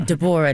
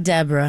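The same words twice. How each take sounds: First: "Deborah" in three syllables, stressed on the middle. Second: "Deborah" squeezed to DEB-ra; two syllables. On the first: Actress correcting the host on her character's name, "Deborah" as de-BOR-ah. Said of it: "three syllables". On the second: Actress showing the host the wrong name, "Deborah" as two-syllable DEB-ra. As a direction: say "Deborah" as DEB-ra, stress first. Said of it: "not Deborah". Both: Shown as a demonstration.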